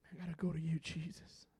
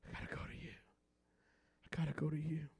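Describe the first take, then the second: First: Soft, hushed plea, much softer; hushed prayer. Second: Breathy whispered plea; whispered prayer. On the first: Pastor praying to Jesus, soft hushed plea. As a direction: pray it under your breath. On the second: Pastor repeating his prayer, whispered. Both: Acted.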